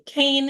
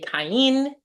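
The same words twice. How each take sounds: First: The name has its English pronunciation. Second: The name has its Hebrew pronunciation. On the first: "you might be more familiar with the name Cain" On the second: "When I say Cain"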